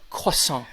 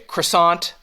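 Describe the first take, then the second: First: It is said with a French-style pronunciation. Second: It is said with an ordinary American pronunciation.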